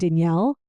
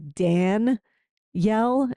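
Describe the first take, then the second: First: The ending is blended, without a distinct 'yell'. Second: The ending sounds like a separate, distinct 'yell'. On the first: This is how the speaker and those around her say it. "I was saying Danielle" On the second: This is how others want it said. "they want me to say it with more of a Dan yell"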